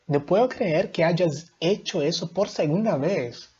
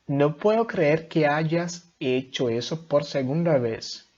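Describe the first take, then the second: First: It is read with a raised, exclamatory tone. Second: It is read in an even, flat tone.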